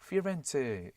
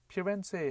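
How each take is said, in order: First: The word begins with an F sound. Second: The word begins with a P sound. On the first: The speaker calls it wrong. "F를 써서 피렌체 일부러 막 이렇게 발음하다 보면은 잘못된 발음이 되는데요" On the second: The speaker calls it right. "P인데"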